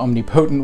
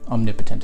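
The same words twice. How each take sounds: First: It is said as 'omni' plus 'potent'. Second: It is said as 'om' plus 'nipotent'. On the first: The speaker calls it wrong. "I say it the omnipotent way just for that example because of the Omnis aspect" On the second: The speaker calls it right. "Omnipotent is how it's pronounced"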